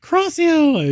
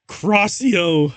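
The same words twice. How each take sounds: First: Much higher, louder spell yell; shrieked spell. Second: Mock spell shout. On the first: Acted. Narrator shrieking the curse at the vampire, far higher. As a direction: scream the curse at full pitch. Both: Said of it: "I shouted".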